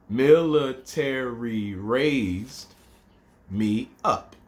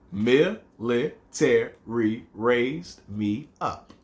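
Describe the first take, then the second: First: Very slow, drawn-out haiku line; slow recitation. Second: "Military raised me up" slow and counted; syllable counting. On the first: Teacher reciting second haiku line very slowly. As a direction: stretch each syllable out. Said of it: "first line's five". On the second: Teacher counting seven syllables for students. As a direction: tick off each syllable slowly. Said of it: "That's seven". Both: Shown as a demonstration.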